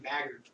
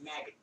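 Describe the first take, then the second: First: The name is said without a Boston accent. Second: The name is said in a Boston accent.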